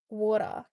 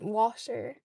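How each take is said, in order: First: It is said in an Australian accent. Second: It is said in a South Dublin Irish accent.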